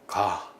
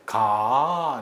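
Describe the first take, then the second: First: It is said as a plain statement. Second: It is said as a gentle suggestion. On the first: It simply ends a declarative sentence. "그냥 일반적인 문서, 문장의 종결, 평사형 종결입니다" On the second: It asks or invites someone to go along. "부탁이나 권유를 하는 청유죠"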